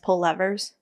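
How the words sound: The word is said with an American pronunciation. "Americans pull levers"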